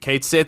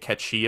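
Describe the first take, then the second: First: The first word sounds like Kate. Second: It sounds like one word, ketchi. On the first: "Kate Sith is probably a bit closer than what I was" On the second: "That's how you actually say it. You say Ketchi apparently"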